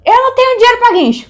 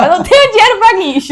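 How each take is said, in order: First: High, loud desperate yell; high yelled plea, half-panicked; retold shout. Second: High, loud pleading cry; higher, louder desperate repeat; retold yell. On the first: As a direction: shout over the rain to the cop. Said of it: "eu gritei pro cara". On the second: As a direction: yell the same plea again at the cop. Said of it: "Falei pro policial".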